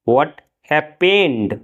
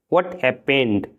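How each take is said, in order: First: Stretched out, word by word; very slow. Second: Said in the usual way. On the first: Shown as a demonstration. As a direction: drag it out for learners to copy. (बहुत धीरे, शब्द-शब्द) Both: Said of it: "क्या हुआ?".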